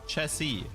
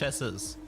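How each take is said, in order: First: The final s sound is left out. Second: The final s sound is clearly pronounced. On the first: The speaker calls it right. "it's pronounced Chessie" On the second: The speaker calls it wrong. "you don't pronounce the S"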